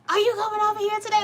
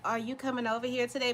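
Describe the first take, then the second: First: It is said loudly, like yelling. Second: It is said calmly at normal volume.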